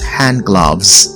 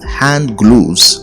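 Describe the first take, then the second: First: Gloves has the same vowel as love. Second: Gloves has a vowel unlike love. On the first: The speaker calls it right. "The right thing to say is hand gloves" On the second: The speaker calls it wrong. "Most people often say hand gloves, but this is wrong"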